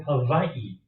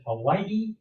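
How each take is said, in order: First: "Hawaii" said slowly with a V for the W; pronunciation with V. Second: "Hawaii" said slowly with a W sound; pronunciation with W. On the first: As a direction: say "Hawaii" as ha-VAI-ee. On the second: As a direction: say "Hawaii" as ha-WAI-ee, with W. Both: Acted. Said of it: "What's the proper pronunciation".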